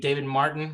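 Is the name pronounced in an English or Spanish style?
English. The name is pronounced the English way. This is how people usually read it. "people read David Martin"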